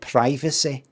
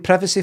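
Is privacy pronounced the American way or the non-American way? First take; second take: American; non-American. First: Privacy is pronounced the American way. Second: Privacy is pronounced the non-American way. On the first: Someone else said it, influenced by American speech. "American pronunciation" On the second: This is the speaker's own usual pronunciation. "It's always been privacy for me"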